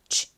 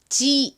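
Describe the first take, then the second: First: The sound is breathy and weak, like escaping air. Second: The sound is clearly voiced, with no escaping air. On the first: The speaker calls it right. "바람 빠지듯이 소리를 내주셔야 됩니다" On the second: The speaker calls it wrong. "이게 아닙니다"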